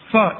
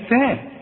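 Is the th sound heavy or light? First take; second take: heavy; light. First: The th sound is pronounced heavy and emphatic. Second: The th sound is pronounced light and thin. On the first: The speaker calls it wrong. "انا فخمت الثاء" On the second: The speaker calls it right. "انما هي ثاء"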